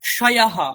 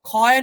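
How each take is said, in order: First: The cluster is said as 'k' plus 'sh'. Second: The cluster is said like a Bengali 'kh'. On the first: The speaker calls it right. "ক এবং মূর্ধন্য ষয়ের যে যুক্তাক্ষরের যে উচ্চারণ" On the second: The speaker calls it wrong. "নয়"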